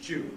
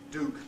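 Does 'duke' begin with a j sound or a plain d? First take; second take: j sound; plain d. First: It starts with a j sound. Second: It starts with plain d, no y sound. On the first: "those who coalesce it into ch and j, say tune and duke" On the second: "Those that lose the yod and say tune, duke"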